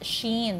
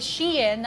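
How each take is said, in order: First: The name sounds like 'sheen'. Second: The name sounds like 'she-in'. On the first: The speaker calls it wrong. "not Sheen" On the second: The speaker calls it right. "is actually just pronounced as uh, is Shein"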